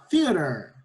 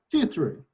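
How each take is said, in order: First: It is said with an American accent. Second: It is said with a British accent. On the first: "No inglês americano a gente fala theater" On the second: "no inglês britânico a gente fala theater. Desculpa"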